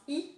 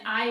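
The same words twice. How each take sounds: First: "I" said as French "ee"; French vowel "ee" for "I". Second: Said in the usual way. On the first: Shown as a demonstration. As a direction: pronounce "I" like "ee". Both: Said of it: "I is pronounced I".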